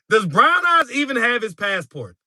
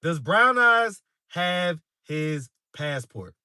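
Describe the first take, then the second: First: High-pitched question breaking out of a laugh; laughing disbelief. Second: Slow right down, separating each word; slow, deliberate. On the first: Streamer reacting to a viewer's trip suggestion, laughing disbelief. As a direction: ask it through real amusement, pitched up. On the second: Streamer putting the question to viewers again, slow and deliberate. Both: Real, not acted.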